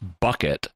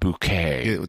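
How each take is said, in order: First: The name ends with a clear t sound. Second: The name ends with an open 'ay' vowel. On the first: This is the ordinary reading of the name. "Her name is Frances Bucket" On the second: This is the posh pronunciation she prefers. "she wants it pronounced Bouquet"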